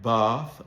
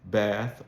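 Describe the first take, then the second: First: The vowel is a long, broad ah sound. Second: The vowel is a short, flat a sound. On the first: "the bath lexical set that you hear in Southern Standard British English" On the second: "in General American English would be pronounced"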